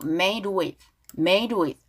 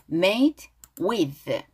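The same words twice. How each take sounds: First: "made with" run together as one word; linked words. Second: "made", then "with", each drawn out and apart; separate words. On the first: Teacher shows how the lyric connects, words linked. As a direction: glide from "made" straight into "with". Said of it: "연결되었고". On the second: Teacher quotes the song lyric for learners, words slow and separate. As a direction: slowly set "made" and "with" apart. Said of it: "자, 노래에서 made with". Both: Shown as a demonstration.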